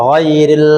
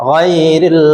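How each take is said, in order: The two takes are said the same way.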